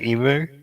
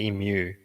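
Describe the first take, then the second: First: The M goes straight into the vowel without a glide. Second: The M runs into a 'you' sound. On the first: This is how Americans say it. The speaker calls it wrong. "Americans say emu" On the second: This is the correct way to say it. The speaker calls it right. "it's actually emu"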